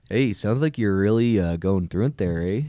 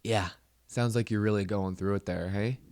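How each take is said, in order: First: Louder, sarcastic fake concern; loud mock sympathy. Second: Said in the usual way. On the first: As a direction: pile on the mock sympathy, loudly. Same mock sympathy, delivered louder.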